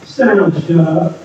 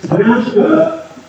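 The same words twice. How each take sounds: First: Slow, low and drawn out; drawn-out low delivery; slow emphatic. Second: Much higher, very slow; slow, high, punched; high drawn out. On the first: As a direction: lean on each word, low and deliberate. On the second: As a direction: stretch it out up high. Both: Shown as a demonstration. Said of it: "I'm telling you, man".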